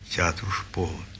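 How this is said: It is read as a personal, reminiscing recollection. The speaker is recalling something he lived through. The speaker calls it right. "Это вспоминает он"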